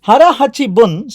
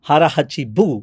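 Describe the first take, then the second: First: The last word ends with an n sound. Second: The last word ends with a vowel sound. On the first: The speaker calls it right. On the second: The speaker calls it wrong.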